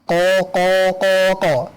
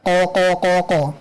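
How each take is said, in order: First: It is said at a slow, careful pace. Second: It is said at a fast, quick pace. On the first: This is the slow, careful reading style. "Empat harokat qaqaqaqo jika tahqiq" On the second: This is the fast reading style. "Jika hadar"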